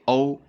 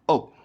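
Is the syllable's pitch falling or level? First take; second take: level; falling. First: The pitch stays high and level. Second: The pitch falls sharply from high to low. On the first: "That's the first tone" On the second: "Fourth tone"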